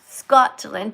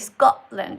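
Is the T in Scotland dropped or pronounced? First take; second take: pronounced; dropped. First: The T in the middle is clearly pronounced. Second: The T in the middle is dropped. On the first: "there's T's in the words like Scotland" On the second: "you guys say Scotland. You don't pronounce the T's"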